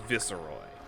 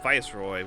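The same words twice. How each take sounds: First: The first syllable sounds like 'viss'. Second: The first syllable sounds like 'vice'. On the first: The speaker calls it wrong. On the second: The speaker calls it right.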